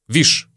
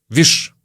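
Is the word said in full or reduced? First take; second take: reduced; reduced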